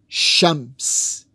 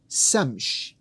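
First: The word begins with SH and ends with S. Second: The word begins with S and ends with SH. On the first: "which has SH in it and it has S in it" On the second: "These could be flipped around"

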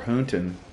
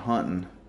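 First: The first vowel sounds like oo. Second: The first vowel sounds like uh.

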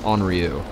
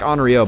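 First: The name ends in a 'yoo' sound. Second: The name ends in an 'oh' sound. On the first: "I've heard it pronounced Henri-you" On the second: "it's spelled like Henri-o"

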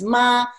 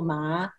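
First: The syllable is said with Mandarin tone one. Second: The syllable is said with Mandarin tone two. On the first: "tone one is ma" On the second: "tone two ma"

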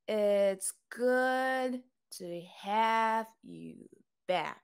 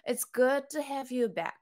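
First: The sentence is said at a slower pace. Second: The sentence is said at a faster pace.

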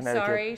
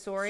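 First: It is said in a standard American accent. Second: It is said in a Wisconsin accent. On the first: "instead of saying sorry" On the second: "she says sorry"

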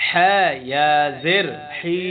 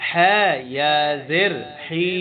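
The two takes are said the same way.

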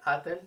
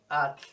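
First: An e vowel separates the t and l. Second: The t and l are joined, no vowel between. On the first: The speaker calls it wrong. "no se escucha atel" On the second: The speaker calls it right. "es at, punto"

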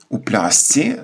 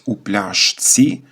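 First: The consonant before 'tsi' sounds like 's'. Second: The consonant before 'tsi' sounds like 'sh'. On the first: "за нормами орфоепії ми говоримо у плясці внаслідок асиміляції" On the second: "навіть якщо написано у пляшці"

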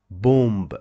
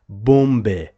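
First: The word ends without a final vowel. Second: A final vowel sound follows the b. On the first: The speaker calls it right. "the letter E at the end of a word is not pronounced at all" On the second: The speaker calls it wrong. "it is not correct to say bombe"

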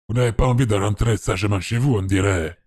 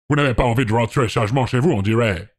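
First: It is spoken with a Spanish-sounding accent. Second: It is spoken with an American accent. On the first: The speaker calls it right. "il dit amigo, donc c'est plus... C'est plus ça" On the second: The speaker calls it wrong. "comment on fait l'accent américain? Un peu comme ça"

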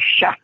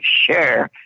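First: It is said as sha, with no r. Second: It is said like English share, with an r. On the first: "they say Sha" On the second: "we Cajuns don't say share"

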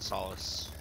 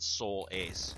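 First: The word is said like 'sol-us'. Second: The word is said like 'soul ace'. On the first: The speaker calls it right. "I meant Solace. Because that's how you pronounce that" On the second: The speaker calls it wrong. "not Soul Ace"

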